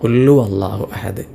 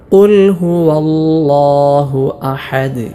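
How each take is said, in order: First: The h and w sounds are left out. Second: Every sound, including h and w, is clear. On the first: The speaker calls it wrong. "ഹാ ഉം വാവും ഒന്നും വെളിവാക്കാതെയുള്ള ഒരു ഉച്ചാരണമുണ്ട്" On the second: The speaker calls it right. "ഓരോ ഹർഫുകൾക്കും നല്ല അക്ഷരസ്ഫുടത നൽകി"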